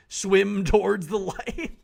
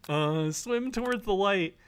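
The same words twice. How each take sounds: First: Slow, drawn-out and loud, rising on "towards"; dreamy slow call. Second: Chanted, slow and higher, falling on "towards"; chanted, drift it out like a trance; slow dreamy chant. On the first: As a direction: stretch "towards" into a hypnotic call. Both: Acted.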